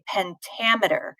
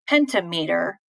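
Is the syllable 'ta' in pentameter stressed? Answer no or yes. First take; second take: yes; no. First: The syllable 'ta' carries the main stress. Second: The syllable 'ta' is not the stressed one. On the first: The speaker calls it right. "The ta is more stressed than the rest of it" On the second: The speaker calls it wrong. "we don't say pentameter"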